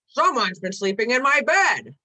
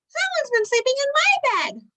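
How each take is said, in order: First: It is said in a deep growl. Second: It is said in a high squeak.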